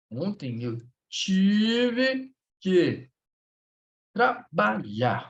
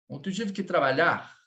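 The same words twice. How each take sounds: First: Very slow, stretched word by word; slow dictation. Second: Said in the usual way. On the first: Shown as a demonstration. Teacher sets class a sentence to translate, slow dictation. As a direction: draw out "tive que", then space out "trabalhar".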